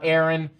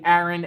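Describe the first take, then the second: First: It is said without a New York accent. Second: It is said with a New York accent. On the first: "not Aaron" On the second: "I say Aaron"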